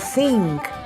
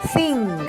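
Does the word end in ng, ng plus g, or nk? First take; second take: nk; ng plus g. First: The word ends with ng followed by a k. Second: The word ends with ng followed by a g. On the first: "or think" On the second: "Pronouncing final n as ng or nk. It's not thing"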